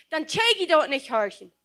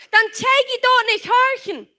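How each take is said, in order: First: Said in the usual way. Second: Higher and louder, hammered home; preacher driving the point home; emphatic repeat. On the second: Real, not acted. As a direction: repeat it with full force. Preacher repeats line, second louder.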